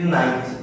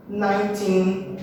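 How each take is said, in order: First: "ninety" lower, falling after the first syllable; NINE-ty, front-stressed. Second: "Nineteen" slow, with a drawn-out final syllable; nine-TEEN, end-stressed. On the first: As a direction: lean on the start of "ninety", drop the end. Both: Shown as a demonstration. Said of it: "sempre lembrando de diferenciar qual que é a stressed".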